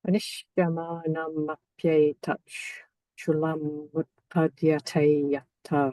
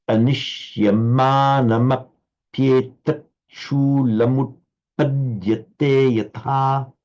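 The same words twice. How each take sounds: First: Anishyamana mapyeta chulam utpadyate yatha slow, long syllables held; light and heavy syllables. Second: Anishyamana mapyeta chulam slow, heavy syllables stretched; light and heavy syllables. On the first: [name] repeats the line for the teacher, slow beat-marked recitation. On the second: Teacher models the line for [name], slow and beat-marked. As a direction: pace it by beats, long syllables twice as long. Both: Shown as a demonstration. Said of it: "emphasizing the lights, the light syllables and the heavy".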